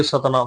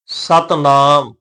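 First: ਸਤਨਾਮ quick, merged as satanaam; mistaken reading. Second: ਸਤਨਾਮ slowly as sat, naam; firm short sat, then long held naam in ਸਤਨਾਮ; corrected reading. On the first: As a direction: run ਸਤਨਾਮ together without a break after sat. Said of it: "ਕਿਤੇ ਭੁਲੇਖੇ ਦੇ ਨਾਲ ਅਸੀਂ ਇੰਝ ਪੜ੍ਹ ਜਾਈਏ". (ਸਤਨਾਮ ਛੇਤੀ, ਜੋੜ ਕੇ) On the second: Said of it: "ਸਤਨਾਮ ਨਹੀਂ ਪੜ੍ਹਨਾ". (ਸਤਨਾਮ ਨੂੰ ਸਤ ਤੇ ਨਾਮ ਵੱਖ ਕਰਕੇ) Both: Shown as a demonstration.

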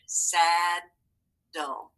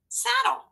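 First: SADDLE split into two drawn-out parts, "sad", then "dle"; syllable by syllable. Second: Said in the usual way. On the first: Shown as a demonstration. Teacher reading the word together with the class, Saddle broken into syllables. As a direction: say Saddle slowly, pausing between its two syllables. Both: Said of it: "let's read it all together".

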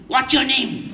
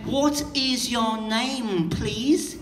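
First: Short and to the point; quick, no wasted words; clipped direct version. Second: Slow and drawn out, every word spelt out; overly polite, slow and wordy; slow polite version. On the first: Showing how Charos ask, clipped and direct. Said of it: "We come to you and go directly". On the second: Mocking how you people ask, slow and over-polite. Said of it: "you people will say something like". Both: Retold or imitated.

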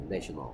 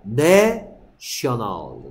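First: Said in the usual way. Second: 내셔널 very slow, 내 held long and loud as "neh"; teacher's drawn-out model of 내셔널; exaggerated short-e sound. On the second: Shown as a demonstration. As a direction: stretch and punch 내 in 내셔널, then let 셔널 fall. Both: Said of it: "에 소리".

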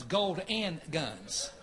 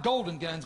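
First: "gold and guns" spaced out slowly, each word separate; slow correction. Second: "golden guns" said as one word, golden; wrong reading. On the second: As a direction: run "golden guns" together, no "and". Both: Shown as a demonstration. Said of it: "Not golden guns".

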